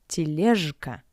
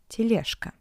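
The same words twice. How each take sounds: First: The consonant before k is a voiced zh. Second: The consonant before k is a voiceless sh. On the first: The speaker calls it wrong. "not тележка" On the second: The speaker calls it right. "but тележка"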